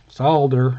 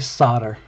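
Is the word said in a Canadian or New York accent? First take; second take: Canadian; New York. First: It is said in a Canadian accent. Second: It is said in a New York accent.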